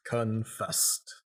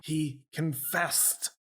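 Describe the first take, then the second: First: Said in the usual way. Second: Slow, high, overdramatic reveal; theatrical. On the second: Acted. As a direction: stretch it out like a stage actor. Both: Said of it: "I get all theatrical with my arms".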